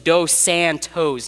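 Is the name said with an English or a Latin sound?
English. The name is said with a plain English sound. The speaker calls it right. "Like it's Dos Santos"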